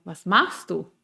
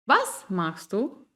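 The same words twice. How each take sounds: First: Machst stressed, falling end; falling question. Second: Very slow, Was stressed, rising end; rising question. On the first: Teacher showing different question melodies, falling. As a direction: let Was machst du drop. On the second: Teacher showing different question melodies, rising. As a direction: draw out and rise on Was machst du. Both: Shown as a demonstration. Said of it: "Son diferentes tonos y diferentes melodías".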